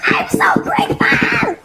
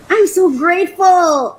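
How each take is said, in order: First: Very high squealed thanks, near tears; overwhelmed gratitude. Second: Loud, higher-pitched emphatic thanks; heartfelt gratitude. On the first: Vlogger grateful for her long-wanted pot, squealing near tears. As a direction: squeal it with real joy. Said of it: "I feel like I'm gonna cry". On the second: Vlogger stating thanks for her new pot, emphatic. Repeats thanks, more in control. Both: Real, not acted.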